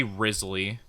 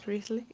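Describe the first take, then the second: First: "Risley" said as Riz plus Lee, with a z; "Risley" with a buzzing z; spelling pronunciation. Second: "Risley" said REES-lee, with a soft s; "Risley" with a hissed s, questioning; suggested pronunciation. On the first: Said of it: "like Riz and then Lee". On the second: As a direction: try "Risley" tentatively as REES-lee, rising. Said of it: "I think it is pronounced Risley". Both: Shown as a demonstration.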